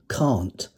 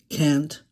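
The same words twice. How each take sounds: First: It is said with a non-American pronunciation. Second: It is said with an American pronunciation. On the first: The speaker calls it wrong. "rather than can't" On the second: The speaker calls it right. "Can't rather than"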